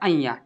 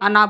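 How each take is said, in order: First: The letter name is said as 'aiya'. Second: The letter name is said as 'ana'. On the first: The speaker calls it right. "इसे अइया पढ़ा जाता है" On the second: The speaker calls it wrong. "अना बोल देते हैं"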